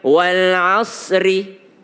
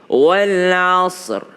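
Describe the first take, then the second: First: The word ends with an added i vowel. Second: The word ends on a bare consonant. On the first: The speaker calls it wrong. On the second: The speaker calls it right.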